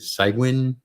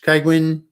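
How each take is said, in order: First: The first syllable sounds like 'sig'. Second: The first syllable sounds like 'kai'. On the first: "some people pronounce it Cygwin" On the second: "If you if you ever use Kaigwin"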